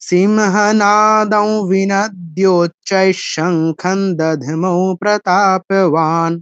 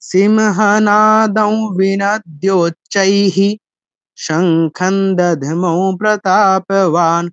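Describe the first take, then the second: First: It runs on in one breath without a break. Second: It breaks after "-cchaihi", voicing the visarga as "hi". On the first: "একসাথে পড়তে চাইলে তখন আর সেটা করতে হবে না" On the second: "ভেঙে পড়লে আমাকে বিসর্গটা এরকম উচ্চারণ করতে হবে, চাইহি বলতে হবে"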